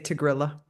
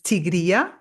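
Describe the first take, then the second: First: The name is said the American way. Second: The name is said the native way. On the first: "a lot of Americans say" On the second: "The pronunciation is"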